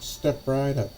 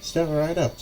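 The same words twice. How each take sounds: First: High barker call, trailing off; strange carnival barker voice. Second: High, carnival-barker call; strange carnival barker voice. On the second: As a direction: beckon the crowd in a high, odd barker voice. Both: Acted. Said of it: "completely different sounding voice than you expect".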